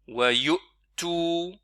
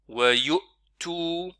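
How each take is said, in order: No difference in how they are said.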